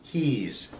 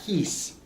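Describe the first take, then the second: First: The word ends with a buzzing Z-like sound. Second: The word ends with a hissing S sound. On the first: The speaker calls it right. "we say the S almost like a Z" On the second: The speaker calls it wrong. "Not he's"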